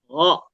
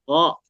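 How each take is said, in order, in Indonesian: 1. Bunyinya diawali dengan desis lembut tinggi di tenggorokan. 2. Bunyinya diawali dengan desis lembut tinggi di tenggorokan.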